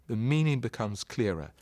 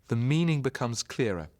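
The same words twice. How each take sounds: The two takes are said the same way.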